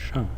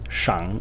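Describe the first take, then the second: First: The syllable has a sharp falling tone. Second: The syllable has a low dipping tone. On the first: "In the fourth tone" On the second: "In the third tone"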